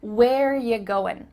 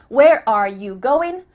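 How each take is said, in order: First: Slow "Where ya going", "are" left out; measured casual question; reduced ya. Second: Slow, loud, separate "are you"; careful full question; full unreduced form. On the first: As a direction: cut "are", weaken you to "ya". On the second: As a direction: say every word of "Where are you going". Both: Shown as a demonstration. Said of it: "we cut out R".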